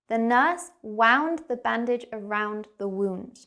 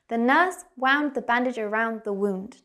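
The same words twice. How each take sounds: First: The sentence is spoken slowly and carefully. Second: The sentence is spoken at natural, faster speed. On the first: "We're going to go slow to start" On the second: "and then like a native speaker"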